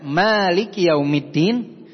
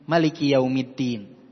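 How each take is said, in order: First: The vowel after the m is drawn out long. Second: The vowel after the m is kept short.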